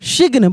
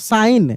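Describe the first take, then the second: First: A g sound is pronounced in the word. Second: No g sound is pronounced in the word. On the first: The speaker calls it wrong. "बहुत लोग सिग्न पढ़ देते हैं, सिग्न नहीं पढ़ते" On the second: The speaker calls it right. "यहाँ पे जी का उच्चारण नहीं हो रहा है"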